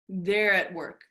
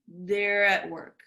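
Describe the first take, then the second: The two takes are said the same way.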